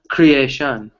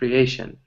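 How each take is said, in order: First: The stress is not on the second syllable. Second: The stress is on the second syllable. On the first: The speaker calls it wrong. "it's not creation" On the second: The speaker calls it right. "So that A is a little bit more stress"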